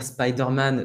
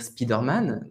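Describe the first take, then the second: First: "Spider-Man" as "spaï-deur-man"; "spy" pronunciation. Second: "Spider-Man" as "spi-deur-man"; "spee" pronunciation. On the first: Teacher quoting what some people say, "spaï" vowel. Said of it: "certaines personnes vont dire". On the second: Teacher quoting what others say, French "spi" vowel. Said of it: "d'autres vont dire". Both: Shown as a demonstration.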